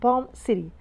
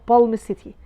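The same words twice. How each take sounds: First: The L in Palm is silent. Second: The L in Palm is pronounced. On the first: The speaker calls it right. "why I pronounce it Palm City" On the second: The speaker calls it wrong. "not Palm City"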